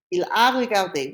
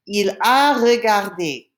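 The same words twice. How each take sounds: First: Said in the usual way. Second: Slow, louder French teaching model; slow model pronunciation. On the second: Shown as a demonstration. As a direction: spell it out slowly for learners. Teacher models French phrase for learners.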